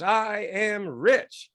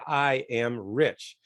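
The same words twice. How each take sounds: First: Audience chanting back. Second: Leader's slow affirmation. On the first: Retold or imitated. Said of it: "And everybody goes". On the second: Shown as a demonstration. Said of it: "And everybody say".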